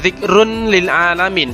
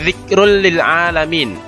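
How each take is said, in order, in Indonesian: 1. Bunyi n terucap jelas sebelum l. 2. Bunyi n menyatu sepenuhnya ke dalam l. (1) "bukan zikrun lil alamin" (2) "tetapi zikrul lil alamin"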